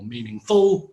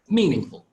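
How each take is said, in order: First: The stress falls on a later syllable. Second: The stress falls on the first syllable. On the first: The speaker calls it wrong. "Not meaningful or meaningful" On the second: The speaker calls it right. "but it's meaningful with the stress on the first syllable"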